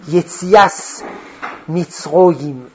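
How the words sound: It is said in Ashkenazi Hebrew pronunciation.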